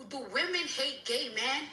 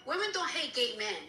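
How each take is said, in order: First: "men" lifted in a questioning rise; quoted question. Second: Falling, final "men" as a statement; firm rebuttal. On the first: Retold or imitated. Ranter repeats what the rival asks on the app, questioning. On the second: Real, not acted. Ranter answers the rival's question, firm rebuttal. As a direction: correct it firmly, landing downward on "men".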